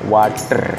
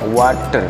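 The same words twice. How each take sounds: First: The r at the end is strongly pronounced. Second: The r at the end is strongly pronounced.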